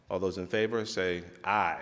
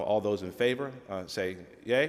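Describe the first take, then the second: First: "aye" said like eye, a long open vowel. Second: "yay" said as the word yea, a long ay sound. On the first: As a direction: call out "say aye" clearly. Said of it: "we're gonna go with aye". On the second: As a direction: read "say yay" straight off the script. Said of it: "The teleprompter says yay". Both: Shown as a demonstration.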